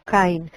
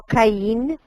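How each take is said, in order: First: "Caín" stressed on the first syllable, CA-in, falling; Hebrew stress. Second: "Caín" with the stress on the last syllable, ca-ÍN, rising; "Caín" as two syllables, the second one stressed; wrong Spanish stress. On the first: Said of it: "Acento penúltimo en la primera sílaba". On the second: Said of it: "No Caín". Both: Shown as a demonstration.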